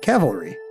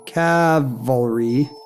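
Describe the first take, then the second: First: The word runs smoothly without any pause. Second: There is a short pause inside the word. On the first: "you weren't even doing the pause anymore" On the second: "you weren't even doing the pause anymore"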